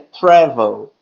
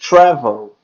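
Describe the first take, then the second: First: The word starts with a plain t sound. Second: The word starts with a ch sound. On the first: The speaker calls it right. "Sendo que é travel" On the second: The speaker calls it wrong. "tenho essa tendência de falar tch, tch, travel"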